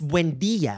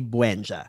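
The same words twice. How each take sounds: First: The name is said fully with every syllable. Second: The name is clipped, dropping half a syllable. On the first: The speaker is a certain kind of woman. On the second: The speaker knows their worth and saves energy.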